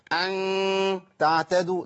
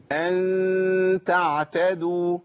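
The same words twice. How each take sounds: First: أن تعتدوا with the ghunna of أن made ugly and overdone, a mock mistake; imitating a wrong ghunna. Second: Slow recited أن تعتدوا, the nasal ghunna held long and kept light; light ikhfa with a smile. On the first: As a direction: mimic the faulty heavy ghunna on أن تعتدوا. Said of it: "ده خطأ صح؟". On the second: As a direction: stretch the ghunna of أن thin and light, a slight smile on the lips. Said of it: "محتاج إن أنا أعمل ابتسامة بسيطة". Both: Shown as a demonstration.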